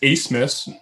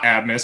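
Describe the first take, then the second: First: An s sound comes before the m. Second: A b sound comes before the m. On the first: The speaker calls it right. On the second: The speaker calls it wrong.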